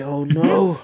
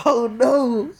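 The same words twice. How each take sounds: First: Said in the usual way. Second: Higher, hammed-up dread; a mock wail of worry about the result; mock panic.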